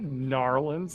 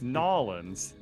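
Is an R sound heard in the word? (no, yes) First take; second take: yes; no. First: The word is said with an R sound. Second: The word is said without an R sound. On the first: The speaker calls it wrong. "Not Narlands" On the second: The speaker calls it right. "There's no R. It's Nolans"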